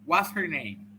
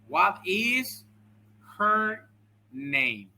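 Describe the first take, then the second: First: The words run together like one long word. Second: Each word is said separately with small gaps. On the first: This is how the sentence sounds in speech. "cómo suena esta misma frase escrita, pero de forma oral?" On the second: This is how the sentence looks in writing. "Escucha. ... Y están los espacios porque lo, lo, está escrito"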